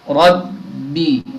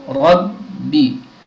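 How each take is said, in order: Both takes have the same delivery.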